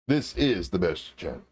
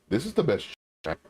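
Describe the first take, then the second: First: It ends falling, like a plain statement. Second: It ends rising, like a doubtful question.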